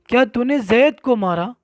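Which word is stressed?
जैद. The word जैद carries the stress. Who was hit is what is being confirmed. "अब जिसको मारा गया है, अगर उसमें तकरीर आपको करना है"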